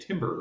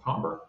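First: The first syllable sounds like 'tim'. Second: The first syllable sounds like 'tam'. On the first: The speaker calls it wrong. "People would often say timber around the West Coast" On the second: The speaker calls it right. "but it's actually, you know, timbre"

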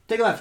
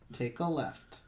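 First: It is read quickly. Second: It is read more slowly.

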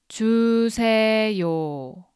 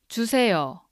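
First: It is said slowly. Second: It is said fast.

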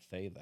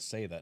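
First: The first word begins with a 'th' sound. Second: The first word begins with an 's' sound. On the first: The speaker calls it wrong. "I don't know what the fuck Thay is" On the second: The speaker calls it right. "I said it properly"

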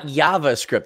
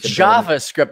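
First: The J is pronounced with a Dutch-like sound. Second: The J is pronounced the usual English way. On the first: The speaker calls it wrong. "not JavaScript. This isn't Mexico" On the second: The speaker calls it right.

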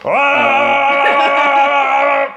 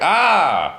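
First: It is one steady, beam-like sustained tone. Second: It is an ordinary, varied human scream.

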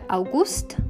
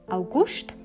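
First: It is said in Standard German. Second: It is said in Swiss German.

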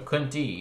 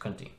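First: The final vowel is long. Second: The final vowel is short. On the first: This is the feminine form, the daughter's name. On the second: This is the masculine form, the king's name.

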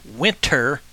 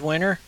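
First: The middle T is clearly pronounced. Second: The middle T is dropped, sounding like winner. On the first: The speaker calls it right. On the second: The speaker calls it wrong.

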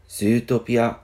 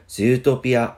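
First: It is said Japanese-style with a long zoo. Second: The same.

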